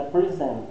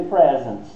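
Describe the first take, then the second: First: "present" stressed on SENT, reduced first syllable; verb stress. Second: "present" stressed on PRE, short e; noun stress. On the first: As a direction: say "present" as pri-ZENT. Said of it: "Se for o verbo, é present". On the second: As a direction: say "present" as PREZ-ent. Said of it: "Se for o substantivo, aí é present". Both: Shown as a demonstration.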